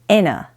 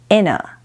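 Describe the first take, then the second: First: The TH sound merges into an N sound. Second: The same.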